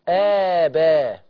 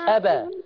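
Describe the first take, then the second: First: The opening vowel is stretched out long. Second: The opening vowel is short and clipped. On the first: The speaker calls it right. "مدي ستة" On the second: The speaker calls it wrong. "مش أبا، ما تقوليش أبا"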